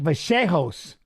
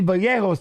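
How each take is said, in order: First: Vallejos said as vuh-SHAY-hos, double L like an SH; how everybody says it. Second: Vallejos said as vuh-YAY-hos, double L like a Y; own way of saying it. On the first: Retold or imitated. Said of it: "everybody's like". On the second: Shown as a demonstration. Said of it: "that's how I would say it too".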